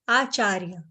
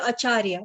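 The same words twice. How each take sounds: First: The first vowel is long. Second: The first vowel is short. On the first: The speaker calls it right. "it's like double a" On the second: The speaker calls it wrong. "we'll say acharya, but it's not acharya"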